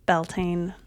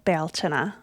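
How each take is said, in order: First: It is said with an anglicized pronunciation. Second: It is said with an Irish pronunciation.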